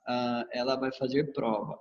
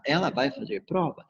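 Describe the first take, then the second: First: Flat statement, falling at the end; "Ah, ela vai fazer prova" as a statement with a falling end; statement tune. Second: Rising question intonation; "Ela vai fazer prova?" as a question with a rising tune. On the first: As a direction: say it as a plain fact, falling on prova. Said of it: "Ao invés de eu falar". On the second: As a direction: ask it, lifting toward the end. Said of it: "eu quero perguntar". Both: Shown as a demonstration.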